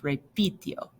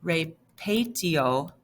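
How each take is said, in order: First: "repitio" with I in the middle; stem-changed form. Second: "repetio" slowly, with E in the middle; regular wrong form. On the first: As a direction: say "repitio" as re-PI-tio, voice dropping. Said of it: "gonna have that stem change". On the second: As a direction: say "repetio" broken up as re-PE-tio. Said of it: "You would wanna say". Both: Shown as a demonstration.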